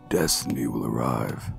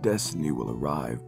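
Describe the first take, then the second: First: A deep voice with an airy, breathy sound. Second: A deep voice with a clear, non-airy sound. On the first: "add this like really airy tone into it" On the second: "just go in the deep voice that you got"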